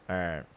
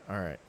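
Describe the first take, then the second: The two takes are said the same way.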